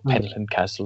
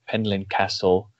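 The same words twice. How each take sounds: First: The name is said with a Welsh pronunciation. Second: The name is said with an English pronunciation.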